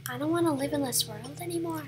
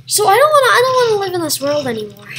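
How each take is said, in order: First: Soft, quick repeat; hushed, half-hearted lament; quiet mock despair. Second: Loud, high outburst, then rushed; hammed-up wail, falling as it goes; mock despair. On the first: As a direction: say it small and resigned. Repeats the line softly. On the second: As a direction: cry out in exaggerated despair.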